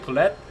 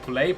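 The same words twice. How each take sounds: First: "poulet" with the t sounded; "poulet" with short e and final t; alternative pronunciation. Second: "poulet" ending in an open ay; "poulet" with no final t; French pronunciation. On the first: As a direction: say "poulet" as poo-LET. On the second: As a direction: say "poulet" as poo-LAY, silent t. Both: Shown as a demonstration. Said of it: "not sure if I'm saying it right".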